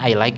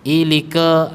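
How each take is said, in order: First: The words are read with English pronunciation. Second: Each letter is read with Indonesian spelling sounds. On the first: The speaker calls it right. "Kan I like gitu" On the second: The speaker calls it wrong. "membaca tulisan Inggris tapi dengan ejaan Indonesia"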